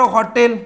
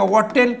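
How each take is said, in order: First: हॉटेल with a clear h at the start; sounded H. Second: वॉटेल, the h replaced by a w glide; dropped H, wrong. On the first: Teacher giving a counterexample word, हॉटेल with its h pronounced. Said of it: "पण शब्द घ्या बरं". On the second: Teacher mocking up a wrong pronunciation, वॉटेल without h. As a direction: say hotel as वॉटेल with no h. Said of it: "इथं उच्चार करायचा का?". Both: Shown as a demonstration.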